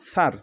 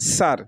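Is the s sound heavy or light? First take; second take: heavy; light. First: The s sound is heavy and emphatic. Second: The s sound is light and thin. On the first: The speaker calls it right. "সার এরকম হবে" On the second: The speaker calls it wrong. "এখানে যদি আমরা বলি সার তাহলে ভুল"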